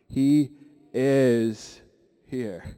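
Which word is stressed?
is. The word 'is' is stressed. "one more time with an emphasis on the is"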